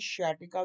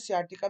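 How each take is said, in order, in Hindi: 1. शब्द 'sh' ध्वनि से शुरू होता है। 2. शब्द 's' ध्वनि से शुरू होता है। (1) "शियाटिका भी बोलते हैं" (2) "इसको सियाटिका भी बोलते हैं"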